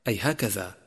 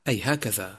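Both takes have the same delivery.

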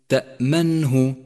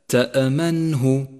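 Both takes have the same delivery.

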